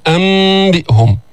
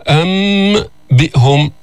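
First: أم بئهم with a long hum running into b; slow, joined أم بئهم; hidden m. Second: أم بئهم with m fully sounded, then a break; slow أم, then detached بئهم; over-clear m. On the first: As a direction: glide from nasal m straight into بئهم. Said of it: "ولكن مخفاة". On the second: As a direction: separate أم from بئهم with a firm m. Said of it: "يعني ليست مظهرة". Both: Shown as a demonstration.

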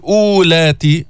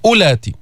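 First: أولاتي with a long first "oo"; waw wrongly pronounced. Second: أولاتي with a short first "u"; silent waw. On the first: Teacher showing the mistake, long "oo" opening أولاتي. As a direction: draw out the silent و of أولاتي into "uulaati". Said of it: "فما بتقول". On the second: Teacher giving the correct form, short "u" opening أولاتي. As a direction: say "ulaati", skipping the و in أولاتي. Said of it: "ماذا تقول؟". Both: Shown as a demonstration.

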